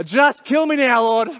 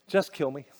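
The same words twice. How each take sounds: First: Higher and louder, a furious dramatic outburst; angry demand. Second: Despairing plea. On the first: Jonah furious at God's mercy, loud dramatic outburst. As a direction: throw it at God like a tantrum. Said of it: "He's angry with God". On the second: Jonah tells God he wants to die, quietly despairing. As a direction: lower and softer, a defeated sigh of a line. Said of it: "here's how he responds". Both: Retold or imitated.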